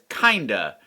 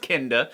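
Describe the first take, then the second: First: It sounds like the casual word 'kinda'. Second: It does not sound like casual 'kinda'. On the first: The speaker calls it wrong. "which I have inaccurately pronounced as kinda" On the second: The speaker calls it right. "but it's pronounced kinda"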